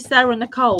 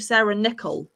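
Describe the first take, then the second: First: The surname sounds like the name Nicole. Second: The surname sounds like the coin nickel. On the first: This is how the speaker has been saying it. "I say Sarah Nicole" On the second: This is how other people say it. "I hear other people call you Sarah Nickel"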